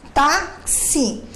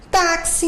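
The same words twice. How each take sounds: First: "Táxi" split into "ták" and "si" with a pause; "Táxi" syllable by syllable, strong first beat; counting syllables. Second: Said in the usual way. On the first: Shown as a demonstration. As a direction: break "Táxi" into two slow beats. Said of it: "então, que eu conto?".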